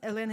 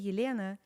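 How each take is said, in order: First: The name is said with a plain English L. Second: The name is said with a Russian soft L. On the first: This is the easy local version she accepts. "Elena is good" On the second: This is how the name sounds in her own language. "when I say Yelena"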